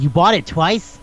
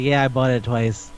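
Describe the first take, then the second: First: Disbelieving, pitch climbing on the question; retold astonished double-check; incredulous question. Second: Matter-of-fact. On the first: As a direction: query it in mock disbelief. Acted disbelieving question in retold dialogue. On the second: Retold or imitated. Acted matter-of-fact answer to that question.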